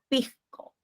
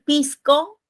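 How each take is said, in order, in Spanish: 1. El sonido de la s se debilita. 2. El sonido de la s es claro y pleno. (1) "digo ... el sonido de la S ... se debilitan" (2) "En lugar de decir"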